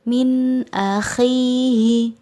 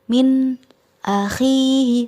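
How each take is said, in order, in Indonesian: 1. Frasa itu mengalir terus tanpa jeda sama sekali. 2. Frasa itu terputus setelah nun. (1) "tetapi harus mengalir" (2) "tidak memutus bacaan, tidak min akhihi"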